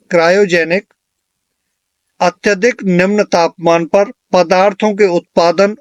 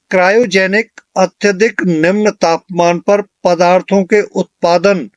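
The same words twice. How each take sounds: The two takes are said the same way.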